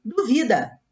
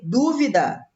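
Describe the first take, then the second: First: "duvida" stressed on "vi", du-VI-da; weight on "vi" in "duvida"; verb stress. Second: "dúvida" stressed on the first syllable, DÚ-vi-da; weight on "dú" in "dúvida"; noun stress. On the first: Teacher reading the verb: "duvida" stressed on "vi". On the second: Teacher reading the noun: "dúvida" stressed on "dú". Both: Shown as a demonstration. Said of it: "Se eu retiro o acento".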